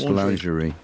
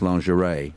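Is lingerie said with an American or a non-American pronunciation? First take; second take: non-American; American. First: The word is said with a non-American pronunciation. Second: The word is said with an American pronunciation. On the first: "It's IE at the end. It's pronounced lingerie" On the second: "American, it's pronounced lingerie"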